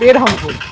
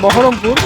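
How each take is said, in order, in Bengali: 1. এটা ওড়িয়া উচ্চারণে বলা হচ্ছে, Berhampur হিসেবে। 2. এটা বাংলা উচ্চারণে বলা হচ্ছে, Baharampur হিসেবে। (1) "উড়িষ্যার হচ্ছে বেরহামপুর" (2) "আমাদের যেমন বহরমপুর"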